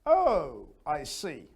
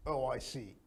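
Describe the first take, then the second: First: "Oh" louder and higher, then "I see". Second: Flat, quiet robot tone; robotic monotone. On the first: Teacher showing the lively way, up and high. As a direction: lift "Oh, I see" with real interest. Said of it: "you go up and high". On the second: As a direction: say it with no feeling. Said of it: "You're not a robot". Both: Shown as a demonstration.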